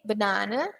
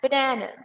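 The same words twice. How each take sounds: First: It is said with a British accent. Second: It is said with an American accent. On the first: "U K" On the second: "U S"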